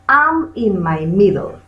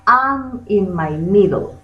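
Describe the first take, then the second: No difference in how they are said.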